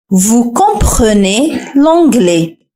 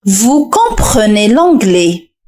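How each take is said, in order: First: "Vous comprenez l'anglais" again, very slow; slow repeat. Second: "Vous comprenez l'anglais" very slow and clear; slow answer. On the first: Teacher repeats the answer for learners, very slowly. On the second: Teacher reveals the answer to the learners, slowly. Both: Shown as a demonstration. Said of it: "حاول أن تركب هذه الجملة".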